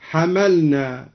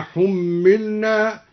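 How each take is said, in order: First: حملنا said as hamalna, fatha on h and m, no doubling; hamalna, light mim. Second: Said in the usual way. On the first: Shown as a demonstration. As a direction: open حملنا, ha-ma-lna, light m. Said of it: "حملنا هكذا مبنيا للمعلوم". (حَمَلنا بفتح الحاء والميم مخففة) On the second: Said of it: "بفتح الحاء وفتح الميم مخففة".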